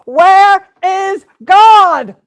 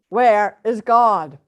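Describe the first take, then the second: First: It is bellowed at full volume. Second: It is said sternly at moderate volume.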